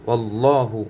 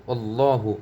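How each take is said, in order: The two takes are said the same way.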